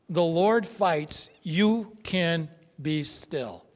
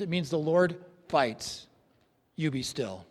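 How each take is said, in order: First: "The Lord fights, you can be still" said at half speed, each word given weight; slow it right down and let every word land; slow, deliberate repeat. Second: Said in the usual way. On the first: Shown as a demonstration. Preacher repeating his point to the congregation, slow and deliberate.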